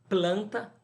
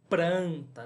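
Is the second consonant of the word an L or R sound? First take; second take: L; R. First: The second consonant is an L sound. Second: The second consonant is an R sound. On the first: "a troca do L pelo R" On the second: "algumas pessoas trocam planta por pranta"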